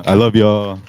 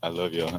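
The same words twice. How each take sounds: First: Much louder, heartfelt sign-off; calling out. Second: Said in the usual way. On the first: Real, not acted. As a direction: call it out to the whole room. Signing off, louder repeat to crowd.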